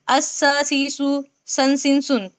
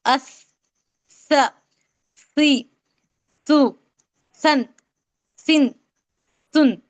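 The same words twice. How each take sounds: First: अस, स, सी, सु, सन, सिन, सुन with an ordinary hissed s; plain sibilant s in the run अस to सुन; seen pronunciation. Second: अस, स, सी, सु, सन, सिन, सुन with th as in "think"; tongue tip past the teeth on each of अस, स, सी, सु, सन, सिन, सुन; lisped drill from अस to सुन, each syllable separate. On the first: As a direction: run through अस, स, सी, सु, सन, सिन, सुन with tongue behind the teeth. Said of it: "ये सीन से हो जाएगा". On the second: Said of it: "लेकिन आप इसको कैसे पढ़ेंगे". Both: Shown as a demonstration.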